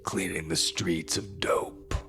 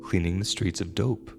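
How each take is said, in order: First: It is said in a put-on imitating voice. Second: It is said in the narrator's plain voice. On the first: "But she said it in a voice that was more like" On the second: "she said"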